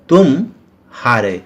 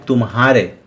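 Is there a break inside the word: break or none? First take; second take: break; none. First: There is a short break after 'tum'. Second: The sounds run together with no break. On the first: "लेकिन दूसरे में" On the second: "म के बाद तुरंत ह आ जाता है"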